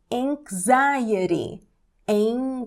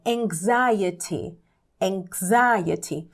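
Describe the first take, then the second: First: "anxiety" as eng-ZAI-uh-ree, the t tapped. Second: "anxiety" as eng-ZAI-uh-tee, crisp t; strong T. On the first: Teacher showing the American pronunciation, tapped T. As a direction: soften the t in "anxiety" into a quick r. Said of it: "esse T com som de rarã". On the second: Teacher showing the alternative pronunciation, strong T. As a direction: pronounce the t in "anxiety" as a true t. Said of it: "com T forte a pronúncia". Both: Shown as a demonstration.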